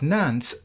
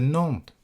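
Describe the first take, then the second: First: The final S sound is clearly pronounced. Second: The final S sound is left silent. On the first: This is the likely original pronunciation of the name. "I am pronouncing this name as Nance" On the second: This is the later pronunciation after the S was dropped. "as opposed to Nantes"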